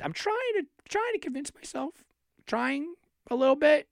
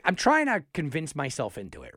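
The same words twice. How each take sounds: First: Pitched far higher, audibly doubting himself; high, half-hearted self-persuasion; unconvinced inflection. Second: Said in the usual way. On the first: Real, not acted. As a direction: sound like you don't buy your own pitch. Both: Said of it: "you hear my inflection in my voice".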